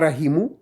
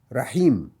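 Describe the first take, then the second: First: The word ends with an added u vowel. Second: The word ends on m with no vowel. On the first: The speaker calls it wrong. "On ne dit pas rahimu" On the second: The speaker calls it right. "On va dire rahim, comme s'il y avait le rond"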